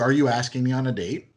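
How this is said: It is asked in a light, playful tone.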